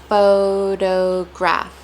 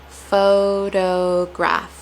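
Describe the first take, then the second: The two takes are said the same way.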